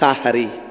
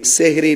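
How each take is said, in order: First: It is said in three syllables, sa-ha-ri. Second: It is said in two syllables, seh-ri. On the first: The speaker calls it right. "না সাহারি" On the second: The speaker calls it wrong. "অনেকে সেহরি কয় সেহরি না"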